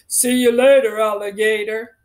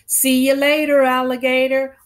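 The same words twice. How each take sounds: First: It is said in a put-on fatherly voice. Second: It is said in her ordinary voice. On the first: "let me say it in my dad voice" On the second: "He would say"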